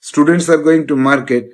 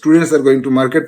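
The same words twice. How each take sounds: First: It is said at a slower pace. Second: It is said at a faster pace.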